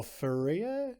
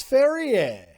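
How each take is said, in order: First: Ferrier tried another way, softer and slower; unsure alternative pronunciation. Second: Ferrier announced big and high, drawn out; first pronunciation attempt. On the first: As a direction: offer Ferrier as a tentative, questioning second guess. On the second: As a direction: say Ferrier loudly like an announced name. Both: Shown as a demonstration. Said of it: "I don't know how to say it".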